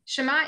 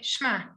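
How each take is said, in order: First: A clear vowel follows the first consonant. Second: The first consonant blurs straight into the next. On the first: "Shema is correct" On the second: "in practice you say shema"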